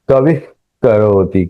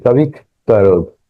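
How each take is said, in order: The two takes are said the same way.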